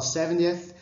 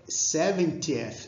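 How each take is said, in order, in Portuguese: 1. O T do meio é suavizado em um tepe. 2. O T do meio é um T nítido e claro. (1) "mais americanizado... ele vai dobrar um pouco esse T aqui do meio" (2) "em vez de falar"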